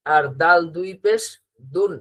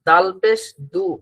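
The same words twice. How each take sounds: First: "দুন" closed with a clear final n sound; "দাল দুই পেশ দুন" ending firmly on n; tanween reading. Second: "দাল পেশ দু" ending on a short open "দু" with no n; "দু" said plain without a final ন; single harakat reading. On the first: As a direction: add a dental ন to finish "দুন". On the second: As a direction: read "দু" short, no nasal ending. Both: Shown as a demonstration. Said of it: "এই জায়গাটাই আমাদের খেয়াল করতে হবে".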